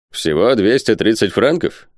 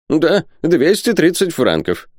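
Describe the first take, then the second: First: "Всего двести тридцать франков?" slow, with rising question tune; checking question. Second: "Да, двести тридцать франков" high and slow, falling at the end; confirming. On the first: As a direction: query "двести тридцать франков", lifting the end. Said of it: "переспросил Гектор Сервадак". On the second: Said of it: "подтвердил Пальмирен Розет". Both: A narrator's reading.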